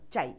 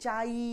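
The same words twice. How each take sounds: First: The final vowel sound is cut short. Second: The final vowel sound is drawn out long. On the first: The speaker calls it right. "ছোট্ট করে বলে থেমে যেতে হবে" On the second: The speaker calls it wrong. "চাই বলতে পারবো না"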